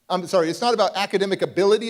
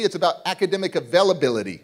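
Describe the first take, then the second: First: Said in the usual way. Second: Lands on availability with a falling close; stress on availability. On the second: Shown as a demonstration. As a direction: punch the word availability.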